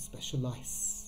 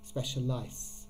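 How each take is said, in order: First: The middle consonant is a hissing S sound. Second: The middle consonant is a hissing S sound.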